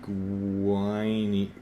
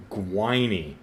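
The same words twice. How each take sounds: First: "Gwiny" sounded out in one long, drawn-out stretch. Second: Said in the usual way. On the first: Retold or imitated. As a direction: stretch out "Gwiny" like a struggling reader decoding it. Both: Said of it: "See if you can sound it".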